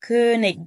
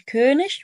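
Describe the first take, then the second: First: The word ends in a hard k sound. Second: The word ends in a soft hissing sound. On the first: "وتنفع تقول كونيج بالإي جي صح" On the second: "تنفع تقول كونش"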